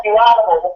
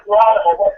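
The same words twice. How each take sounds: First: High, raised mock outrage; mock outraged dad. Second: High, raised mock outrage in her voice; mock outraged mom. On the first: Father calling the son an animal, high mock outrage. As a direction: spit out the insult like a shocked father. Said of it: "He's like". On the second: Mother calling him an animal, high mock outrage. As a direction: hurl the insult like a horrified mother. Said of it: "She's like".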